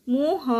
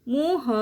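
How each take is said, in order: The two takes are said the same way.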